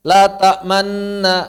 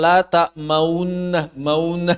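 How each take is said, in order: First: "La ta'manna" slow, holding a pure n with no u sound; silent ismam. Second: "La ta'maunna" slow, a u sound wrongly added before the long n; audible wrong ismam. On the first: Teacher reciting an example, slow "La ta'manna" with unchanged sound. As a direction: stretch "La ta'manna" and keep any rounding silent. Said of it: "kan nggak ada suaranya kan". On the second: Teacher imitating a faulty reciter, drawn-out "maunna" with added u. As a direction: let the pout leak into sound, "maunna". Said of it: "ismam dengan nambahin suara". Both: Shown as a demonstration.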